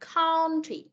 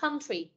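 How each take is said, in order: First: The first vowel sounds like Vietnamese 'on'. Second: The first vowel sounds like Vietnamese 'ơ'. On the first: "con âm on á" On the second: "Hoặc là country, con âm ớ"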